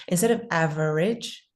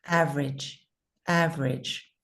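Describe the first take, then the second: First: "average" with three syllables, av-er-age. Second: "average" said as two syllables, AV-rij. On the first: Teacher gives the wrong three-syllable "average" first. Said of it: "two sy-, syllables instead of three". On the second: Teacher models the right two-syllable "average". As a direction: drop the middle vowel of "average". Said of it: "We say it more like two sy-, syllables". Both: Shown as a demonstration.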